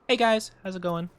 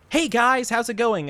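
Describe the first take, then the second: First: It is said in a plain, calmer way. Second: It is said with exaggerated, lively energy.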